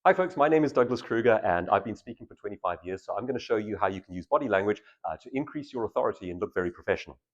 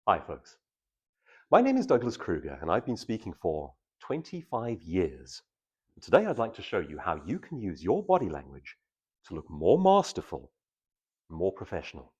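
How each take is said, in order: First: Rushed, fast introduction with no pauses; hurried speaker intro; fast version. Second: Slow, measured intro with long pauses between phrases; calm, masterful pacing; slow version. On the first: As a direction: race through it like you're nervous. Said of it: "So, fast version". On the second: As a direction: let each phrase land before the next. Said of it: "Same again". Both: Shown as a demonstration.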